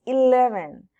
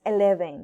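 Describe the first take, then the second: First: "eleven" with an English I sound and V, louder; correct eleven. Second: "eleven" with a Spanish E and B, no English I; wrong eleven. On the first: Teacher loudly corrects to the right "eleven". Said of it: "no, no, es eleven". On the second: Teacher shows the wrong Spanish-style "eleven". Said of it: "no es eleven". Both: Shown as a demonstration.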